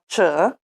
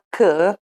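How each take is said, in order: First: The c is a soft ch sound. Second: The c is a hard k sound. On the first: "suono dolce" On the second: "Si pronuncia "ch" quando è abbinata alle seguenti lettere: A, H, O, U"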